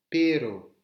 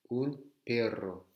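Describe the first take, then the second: First: PERO loud, with one tapped R; R simple. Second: Slow PERRO with trilled RR; double R roulé. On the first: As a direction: punch out pero with a single short R. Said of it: "un simple R". (pero fort, R battu une fois) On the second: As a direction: draw out perro on a rolling R. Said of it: "s'il y a deux R". (perro lent, R roulé) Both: Shown as a demonstration.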